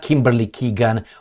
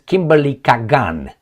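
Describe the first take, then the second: First: The surname's first vowel is a long 'ee' sound. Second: The surname's first vowel is an open 'ah' sound. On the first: The speaker calls it wrong. "She's not Kimberly Keegan" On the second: The speaker calls it right. "She's Kimberly Kagan"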